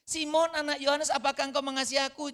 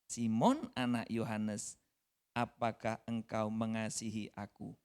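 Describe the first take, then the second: First: High, loud, urgent asking; preacher booming Jesus' question; loud pressing question. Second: Jesus asking tenderly once more; slow gentle question. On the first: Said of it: "Ditanya lagi". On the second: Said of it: "Untuk ketiga kalinya". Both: Acted.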